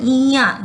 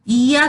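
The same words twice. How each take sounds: First: "इया" ending in a nasal vowel; nasalised ending. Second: Said in the usual way. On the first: Shown as a demonstration. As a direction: let the final आ of "इया" sound through the nose. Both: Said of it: "नाक से जो उच्चारण हो".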